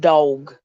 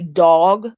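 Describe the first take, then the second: First: The vowel is a short, clipped 'o' sound. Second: The vowel is a drawn-out 'aw' sound. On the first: The speaker calls it right. "D O G" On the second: The speaker calls it wrong. "like D A W G"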